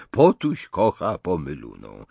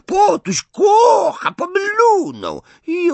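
First: Lower, held-back chant of a departing imp; taunt trailing away. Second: Slow, very high, loud jeer; gloating imp at full screech; screeching taunt. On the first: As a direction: repeat the teasing without screaming. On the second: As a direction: drag out the shrieked teasing chant. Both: A narrator's reading. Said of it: "rechocząc i wrzeszcząc".

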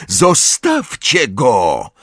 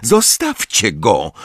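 First: Higher, drawn-out demand, mildly shouted; girl's cry. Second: Said in the usual way. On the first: A narrator's reading. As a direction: cry out to stop the bullies. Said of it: "Krzyknęła jedna z dziewcząt". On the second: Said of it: "powtórzyła Lily".

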